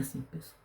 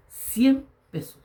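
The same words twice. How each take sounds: First: Said in the usual way. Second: CIEN drawn out high and loud, then PESOS; emphatic CIEN PESOS. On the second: Real, not acted. Father stressing he lacked even a hundred pesos, CIEN high and drawn out. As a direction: stretch CIEN slowly, pitched up high. Dwelling on how small it was.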